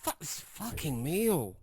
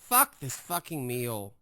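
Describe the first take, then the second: First: It is said in a light, offhand way. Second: It is said in a harsh, angry way. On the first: The swearing is a throwaway remark. "Doesn't that sound more throwaway?" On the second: The speaker is really upset. "like what's wrong with you?"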